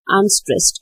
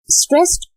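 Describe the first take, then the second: First: "unstressed" back down at normal pitch; unlifted, lighter "unstressed"; unstressed beat. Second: "stressed" very high with a rising tune; stressed beat. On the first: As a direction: drop "unstressed" as the weak beat. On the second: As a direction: lift "stressed" sharply in pitch. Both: Shown as a demonstration. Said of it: "So it was".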